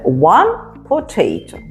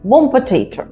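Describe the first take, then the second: First: Each word is said clearly and separately. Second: The words are reduced and run together quickly. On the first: This is the form learners are taught. "А це one potato" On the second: This is how native speakers actually say it. "Або one potato"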